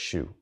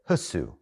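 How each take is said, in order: First: The name is said as one syllable. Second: The name is said as two syllables. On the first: The speaker calls it right. "but it's Shu" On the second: The speaker calls it wrong. "If you said that how it's spelled in English, you would say Husu"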